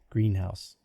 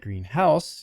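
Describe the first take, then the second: First: The main stress falls on green. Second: The main stress falls on house. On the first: It is a glass building for plants. "Like you really love your strawberries" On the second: It is a house painted green. "if your parents like really interesting colors"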